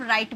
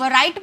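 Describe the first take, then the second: First: राइट said as "raait", w kept silent; राइट with a silent w, plain r start; correct pronunciation. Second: राइट said with a w sound in front, like "wright"; राइट with the w wrongly pronounced; wrong pronunciation. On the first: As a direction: drop the w and just say राइट. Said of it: "इसे हम silent कर देते हैं". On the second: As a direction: sound the silent w in राइट as "w-raait". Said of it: "आर से पहले डब्ल्यू आ जाता है, तो इसे हम साइलेंट कर देते हैं". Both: Shown as a demonstration.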